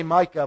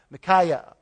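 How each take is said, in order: First: "Micah" said as MY-kuh, two syllables; "Micah" with stress on the first syllable MY; the short "Micah", not the three-syllable name; wrong name. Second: "Micaiah" said as mih-KY-uh, three syllables; "Micaiah" with stress on KY in the middle; the full three-syllable "Micaiah"; right name. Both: Shown as a demonstration. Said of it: "but that's not right".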